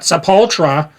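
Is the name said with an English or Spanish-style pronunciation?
English. The name has an English-style pronunciation. The speaker calls it wrong. "Not Sepultura. You don't fucking say it"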